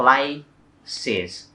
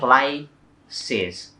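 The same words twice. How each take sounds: First: It is said as two syllables. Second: The same.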